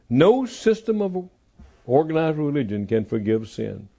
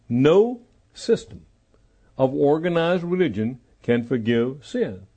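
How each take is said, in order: First: It is said at normal speed. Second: It is said slowly.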